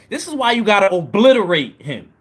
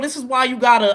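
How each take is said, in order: First: It is said in a put-on college voice. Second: It is said in his normal voice.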